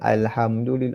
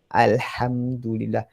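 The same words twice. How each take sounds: First: The h is a light, plain breath sound. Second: The h is a strong sound from mid-throat. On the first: The speaker calls it wrong. "Kalau baca sekadarnya" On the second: The speaker calls it right. "Tengah kerongkong. Ha, pedas"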